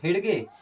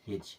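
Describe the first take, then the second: First: The d is pronounced, with a separate hard g. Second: The d is silent, ending in a single j sound. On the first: The speaker calls it wrong. "हेडगे नहीं" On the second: The speaker calls it right. "डी हमेशा के लिए खत्म हो गया"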